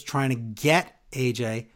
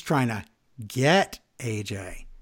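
First: Said in the usual way. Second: Pause, then say GET slowly and low, with hidden meaning; loaded stress on GET. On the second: Shown as a demonstration. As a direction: GET drawn out slow and lower, after a pause. Contrasts two senses of get.

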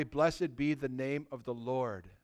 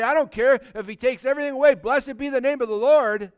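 First: Soft, slow, lower reverent blessing; bow the head and bless him softly; reverent hush. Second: Louder, defiant praise; bold declaration. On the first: Retold or imitated. Job in his suffering blesses the Lord, reverent and soft. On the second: Pretend. A believer in hardship praises before onlookers, loud and bold. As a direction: proclaim it for everyone to hear.

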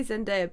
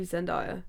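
First: Zendaya said Zen-DAY-a; DAY pronunciation. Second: Zendaya said Zen-DIE-a; DIE pronunciation. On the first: Giving co-host own usual version, Zendaya as Zen-DAY-a. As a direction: make the middle of Zendaya rhyme with day. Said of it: "I say [name]". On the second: Allowing co-host the other version, Zendaya as Zen-DIE-a. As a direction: make the middle of Zendaya rhyme with die. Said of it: "but it might be [name]". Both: Shown as a demonstration.

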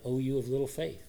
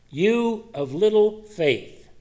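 First: Soft, dropped-down rebuke; softer repeat. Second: Slow, higher, louder stern rebuke; scolding rebuke. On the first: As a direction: say it again, much softer, almost to himself. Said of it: "Jesus has to say it again". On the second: Jesus scolds Peter for doubting, slow stern rebuke. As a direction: drag out each word like a scolding master. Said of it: "So Jesus scolds him". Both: Acted.

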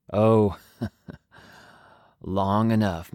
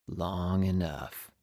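First: Cool traveler's voice. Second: Very slow, softer, trailing off; cool traveler, fading. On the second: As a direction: let it drift away wistfully. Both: Acted. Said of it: "I do need to change voices".

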